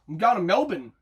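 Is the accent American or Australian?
Australian. An Australian accent with syllables reduced and mumbled. "The Aussie version is take half the letters out and just mumble it"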